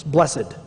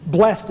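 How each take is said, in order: First: Blessed in two syllables, bless-ed. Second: Blessed as one syllable, blest. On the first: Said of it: "it's two syllables". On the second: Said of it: "blessed is one syllable". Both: Shown as a demonstration.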